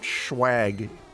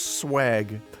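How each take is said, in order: First: It begins with an sh sound. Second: It begins with a plain s sound. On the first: The speaker calls it wrong. "It's not schwag" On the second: The speaker calls it right. "It's swag. There's no H or C H after that S"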